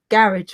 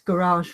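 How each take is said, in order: First: It is said with a British pronunciation. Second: It is said with an American pronunciation. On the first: "we say garage flips" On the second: "in America it's garage"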